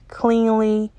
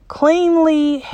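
First: Said in the usual way. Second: Cleanly sung out much higher, savoring it; stress on cleanly. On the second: Shown as a demonstration. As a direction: lift cleanly up high and linger. Repeats word, second one heightened.

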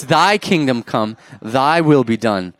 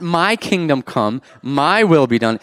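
First: Slow, emphatic correction with "Thy" stretched; stress on "thy". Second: Slow contrast, "My" stretched and punched; stress on "my". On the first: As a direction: lean firmly on "Thy" each time. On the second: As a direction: lean hard and long on "My" each time. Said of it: "It's not". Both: Shown as a demonstration.

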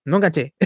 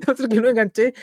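First: Said in the usual way. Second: Laughing through the words. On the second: Real, not acted. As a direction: chuckle while repeating it. Repeats phrase, then laughs.

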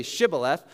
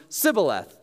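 First: Said in the usual way. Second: "Sibboleth" with a plain s opening; Ephraimite mispronunciation. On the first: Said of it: "these Ephraimites had an accent". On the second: Shown as a demonstration. Ephraimites cannot say the password, "Sibboleth" with s for sh. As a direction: say "Sibboleth", s replacing sh. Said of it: "what would come out of their mouth".

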